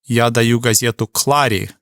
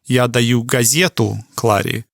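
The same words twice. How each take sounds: First: The stress falls on the word Кларе. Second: The stress falls on the word газету. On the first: The newspaper goes to Clara, not someone else. "You would kind of emphasize the word Кларе" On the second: It is the newspaper being given, not something else. "you'd put a little more emphasis on the газету and maybe have a little more space"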